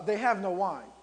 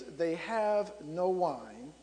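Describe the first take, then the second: First: Brisk, pointed statement; matter-of-fact, not timid. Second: Said in the usual way. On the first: Retold or imitated. Mother telling Jesus the wine is gone, firmly stated. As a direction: state it firmly as a hint to act. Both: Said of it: "the way she said it to me".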